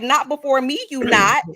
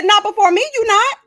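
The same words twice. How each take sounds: First: Sassy retort. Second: Much higher, louder "Not before me, you not"; high sassy retort. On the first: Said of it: "I was like". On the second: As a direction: put her in her place, pitched way up. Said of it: "I said". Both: Retold or imitated.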